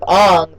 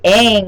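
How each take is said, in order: First: The name is said with an altered, accented vowel. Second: The name is said the familiar, usual way. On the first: The speaker calls it wrong. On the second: The speaker calls it right.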